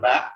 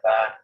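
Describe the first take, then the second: First: The vowel ends with a glottal stop. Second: The vowel ends openly without a glottal stop. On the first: "itu sama panjang, tapi dia ada hamzahnya" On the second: "Itu qasr"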